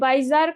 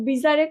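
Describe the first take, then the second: First: The first vowel sounds like 'eye'. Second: The first vowel sounds like 'ee'. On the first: "কেউ বাইজার করে" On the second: "কেউ বিজারে করে"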